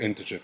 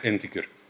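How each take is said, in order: First: It follows the American colleague's pronunciation. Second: It follows the Egyptian teachers' pronunciation. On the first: The speaker calls it right. "بعد ما عرفت المعلومة كلها هتلاقيني بقول انتجر" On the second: The speaker calls it wrong. "قبل ما اعرف المعلومة ه- هتلاقيني بقول فيها انتجر"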